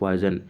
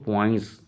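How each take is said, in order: First: The name has a z sound before the end. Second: The name ends with a nasal n-s sound. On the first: The speaker calls it wrong. "ये पॉइजन, इसको पॉइंस पढ़ते हैं" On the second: The speaker calls it right. "इसको पॉइंस पढ़ते हैं"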